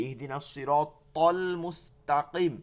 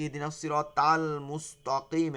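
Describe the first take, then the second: First: Thick tol in Sirat, thin ta in Mustaqim; careful to-ta contrast. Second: Tal thinned, Mustaqim thickened to mustoqim; muddled to and ta. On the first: Teacher reciting where students go wrong, slow thick tol and thin ta. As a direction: slowly stress thick tol, then thin ta. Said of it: "এখানটাই তো আমরা ভুল করি". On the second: Teacher showing how many misread it, swapped tal and mustoqim. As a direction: swap the thick and thin t sounds. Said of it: "এরকম আউলে জাউলে পড়ে". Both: Shown as a demonstration.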